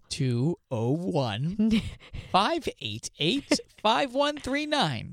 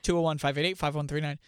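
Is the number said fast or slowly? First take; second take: slowly; fast. First: The number is said slowly and louder. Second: The number is said fast.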